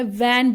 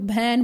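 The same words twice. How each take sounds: First: वैन with a clear v sound; correct van. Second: भैन with a breathy bh in place of v; wrong bhan. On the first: Shown as a demonstration. Teacher shows the right way, वैन with v. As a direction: say वैन with lips-and-teeth v. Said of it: "मैं वैन बोलूँगी". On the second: Retold or imitated. Teacher imitates the wrong भैन with bh. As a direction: say भैन, turning the v into bh. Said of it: "कुछ लोग भैन बोलते हैं".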